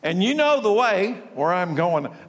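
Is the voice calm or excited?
calm. It is read in a calm, plain voice.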